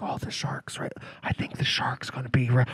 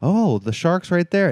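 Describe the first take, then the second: First: Imitated audience whisper, voiceless and hushed. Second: Said in the usual way. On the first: Imitating audience members spotting the shark, whispering. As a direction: whisper it like a moviegoer mid-film. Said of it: "you'd hear whispering". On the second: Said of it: "they'd be like".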